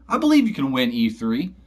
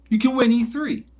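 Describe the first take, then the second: First: Said in the usual way. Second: "win" lifted high and pushed, the whole line pitched up; emphatic. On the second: Real, not acted. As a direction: drive home "You can win E three" with a rising, insistent pitch. Repeats claim, rising emphasis.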